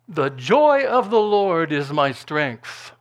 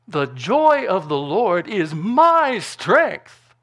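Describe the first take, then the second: First: The word 'my' is not specially stressed. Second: The word 'my' is strongly stressed.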